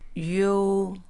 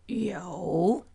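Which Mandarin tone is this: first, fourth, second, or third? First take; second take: first; third. First: The pitch stays high and level. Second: The pitch dips low, then rises.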